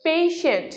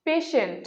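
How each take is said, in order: First: পেশেন্ট with a long glide, 'PEI-shent'; corrected pronunciation. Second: পেশেন্ট with a short 'e', 'pe-shent'; common mispronunciation. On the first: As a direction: stretch the first vowel of পেশেন্ট to 'ei'. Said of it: "এর সঠিক উচ্চারণ হচ্ছে". (পেশেন্ট-এর শুদ্ধ উচ্চারণ, 'পেইশেন্ট') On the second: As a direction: say পেশেন্ট without a glide. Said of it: "যার উচ্চারণ ভুল". (পেশেন্ট-এর ভুল উচ্চারণ, 'পেশেন্ট') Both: Shown as a demonstration.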